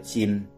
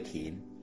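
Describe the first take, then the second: First: The character is given its literary reading. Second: The character is given its colloquial spoken reading. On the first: This is the literary reading, as in careful consideration. "文读音讲斟酌的斟" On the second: This is the everyday spoken reading, as in pouring wine. "白话语讲停酒的停"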